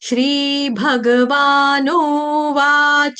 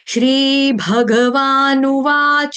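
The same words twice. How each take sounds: First: The final syllable is dragged out long. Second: The final syllable is kept short. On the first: The speaker calls it wrong. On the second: The speaker calls it right.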